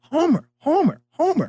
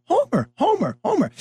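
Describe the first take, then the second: First: Put-on high child's call of Homer; kid calling out. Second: Put-on high eager child's call; kid calling out. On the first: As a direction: call out the name like a young fan. Kid calling again, retold. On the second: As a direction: shout the name across the field like a young fan.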